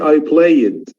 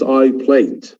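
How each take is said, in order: First: The ending is said as an extra syllable. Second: The ending is a plain d sound. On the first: The speaker calls it wrong. "So I don't say I played" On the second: The speaker calls it right. "It's I played"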